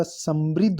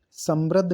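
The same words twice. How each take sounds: First: समृद्ध said "sambrid"; correct pronunciation. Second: समृद्ध said "sambrad"; wrong pronunciation. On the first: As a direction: give समृद्ध a clear "ri". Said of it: "समृद्ध होता है". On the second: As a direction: say समृद्ध with "rad", an a vowel. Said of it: "समृद्ध नहीं होता". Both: Shown as a demonstration.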